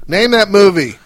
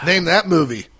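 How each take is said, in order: First: High loud game-show call; louder quiz shout. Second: Loud. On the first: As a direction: belt it like a quizmaster. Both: Real, not acted. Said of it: "quiz call to co-host".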